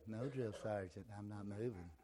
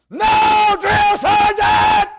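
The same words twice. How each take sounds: First: Soft timid recruit answer; meek quiet reply. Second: High screamed recruit answer; barked military recruit reply. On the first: Shown as a demonstration. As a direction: mumble it meekly. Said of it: "You wouldn't say". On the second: Retold or imitated. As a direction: bark it at full volume, slowly. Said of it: "You wouldn't say, "No, drill sergeant".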